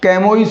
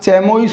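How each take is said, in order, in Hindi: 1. यह k से शुरू होता है और -ois पर खत्म होता है। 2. यह ch से शुरू होता है और -ois पर खत्म होता है। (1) "क्या कैमोइस हो जाएगा?" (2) "क्या चैमोइस हो जाएगा?"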